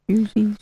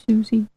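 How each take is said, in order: No difference in how they are said.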